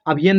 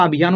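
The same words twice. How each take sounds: First: अभियान with short a, like अभियन; wrong reading. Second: अभियान with a long yaa; correct reading. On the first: Teacher shows the mistaken guess, अभियान said as अभियन. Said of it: "अभियान नहीं होता". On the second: Teacher corrects the guess, अभियान with long या. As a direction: say अभियान holding the या. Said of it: "अभियान होता है". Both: Shown as a demonstration.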